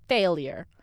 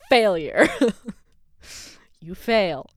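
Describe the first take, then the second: First: Said in the usual way. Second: Loud taunt on Failure, rising; hammed-up inner critic yelling Failure; mock scolding shout. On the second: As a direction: bark Failure at yourself. Inner voice mocking her.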